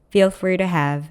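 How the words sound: The pitch falls at the end of the phrase. The speaker calls it right. "일부러라도 끝을 좀 내려서 발음해 주세요"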